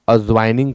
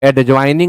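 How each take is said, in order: First: The d sound is silent before the j. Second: The d sound is pronounced before the j. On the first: The speaker calls it right. "आप अज्वाइनिंग कहें" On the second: The speaker calls it wrong. "एडज्वाइनिंग ना कहें"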